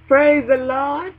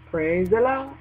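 First: Slow, louder, drawn-out praise; ringing, drawn-out Praise the Lord; preaching praise. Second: Said in the usual way. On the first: Shown as a demonstration. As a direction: stretch it out like calling the church. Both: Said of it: "repeated praise, second one stretched".

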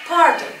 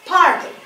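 Both takes have the same delivery.

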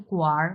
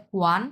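First: "গুয়ার" ending in an r sound; merged r-ending pronunciation. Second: "গুয়ান" ending in an n sound; character reading "গুয়ান", n at the end; written form pronunciation. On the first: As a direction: say "গুয়ার" as one syllable with final r. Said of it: "উচ্চারণ হবে গুয়ার". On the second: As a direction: say "গুয়ান" with a final n. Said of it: "প্রথমে বলে গুয়ান". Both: Shown as a demonstration.

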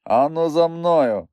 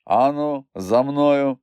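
First: Slow, raised, authoritative order; commanding and insistent. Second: Lightly imitated movie tough guy, a little raised; a hint of film-star command; Humphrey Bogart. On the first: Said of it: "повторив я так владно і наполегливо". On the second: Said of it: "наслідуючий голос Богарта". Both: A narrator's reading.

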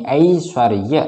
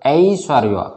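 First: ऐश्वर्य said slowly, first vowel a full ai, not e; clear ai vowel. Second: Said in the usual way. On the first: Shown as a demonstration. (ऐश्वर्य धीरे, पहला स्वर साफ़ 'ऐ', 'ए' नहीं) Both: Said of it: "ए नहीं, ऐश्वर्य".

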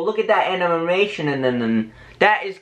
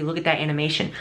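First: "animation" stumbled over with repeated middle syllables; garbled stumbling wording. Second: Said in the usual way. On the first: Real, not acted. Vlogger showing the animation, garbling "animation". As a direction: trip over "animation" and babble on, dropping low. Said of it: "why did I say it like that?". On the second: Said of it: "Why didn't I just say".

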